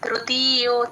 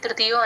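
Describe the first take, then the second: First: The vowels in 'ti' and 'yo' are long. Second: The vowels in 'ti' and 'yo' are short. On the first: The speaker calls it right. "తీకి దీర్ఘం ఉంది, యోకి దీర్ఘం ఉంది" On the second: The speaker calls it wrong. "తృతీయో అనేస్తారు, అలా కాకుండా కొంచెం దీర్ఘం పెట్టండి"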